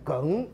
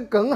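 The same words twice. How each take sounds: First: The word has a rising second tone. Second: The word does not have a rising tone. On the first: "这个念二声，念梗" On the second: "可是对他们来讲"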